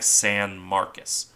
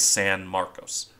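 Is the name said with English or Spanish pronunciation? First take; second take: English; Spanish. First: The name is said with English pronunciation. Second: The name is said with Spanish pronunciation. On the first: This is how the namesake city in Texas says it. "the city in Texas, her namesake, is more like San Marcos" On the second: This is how the name is said in Spanish. "The Spanish one is San Marcos"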